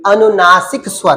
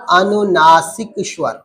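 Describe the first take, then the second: First: Said in the usual way. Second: अनुनासिक स्वर drawn out slowly, syllable by syllable; slow for repeating. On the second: Shown as a demonstration. Teacher asking students to repeat after her, slow. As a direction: stretch अनुनासिक स्वर slowly so the class can echo it. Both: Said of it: "मेरे साथ बोलते रहना".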